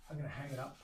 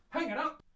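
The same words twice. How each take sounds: First: Said in the usual way. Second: High, loud exclamation; playful shout. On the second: Pretend. Maker shouting the next step to himself, playful shout.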